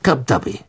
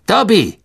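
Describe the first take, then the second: First: Said in the usual way. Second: Higher, impatient call; scharfer Befehl. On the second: A narrator's reading. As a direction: call a disobedient servant to heel, pitched up. Repeats order, servant does not move. (ungeduldig und hoch gerufen)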